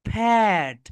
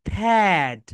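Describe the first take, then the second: The two takes are said the same way.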